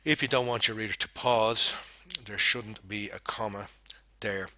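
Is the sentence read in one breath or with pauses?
with pauses. It is read with pauses between phrases. The speaker calls it right.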